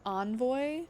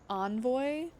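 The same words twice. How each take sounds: First: It is said the American way. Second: The same.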